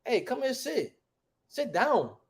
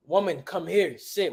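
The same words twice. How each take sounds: First: Higher, softer, colloquial summons; casual everyday talk. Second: Measured, formal-sounding order; stiff literal command. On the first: Teacher showing how we really talk, casual summons. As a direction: wave someone over in everyday slang. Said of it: "We don't talk like that, man". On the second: Teacher mocking how they try to say it, stiff command. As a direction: recite it like a literal translation. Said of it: "We don't talk like that". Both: Shown as a demonstration.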